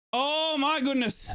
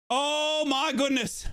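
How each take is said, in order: Both takes have the same delivery.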